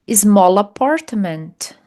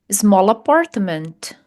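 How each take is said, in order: Both takes have the same delivery.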